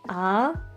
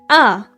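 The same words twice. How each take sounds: First: The pitch goes up, like a question. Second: The pitch drops sharply, like an exclamation. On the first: "The second one's like you're asking a question" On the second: "the f- fourth one is like an exclamation"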